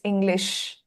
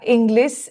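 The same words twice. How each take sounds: First: The word ends with an sh sound. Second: The word ends with a plain s sound. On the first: The speaker calls it right. "it's English" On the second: The speaker calls it wrong. "Don't say"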